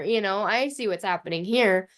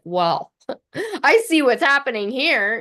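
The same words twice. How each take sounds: First: Said in the usual way. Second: Amused, knowing, a bit louder; knowing laugh. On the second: Retold or imitated. Mother's knowing quote about daughter.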